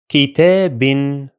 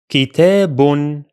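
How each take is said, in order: First: The word ends with an n sound. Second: The same.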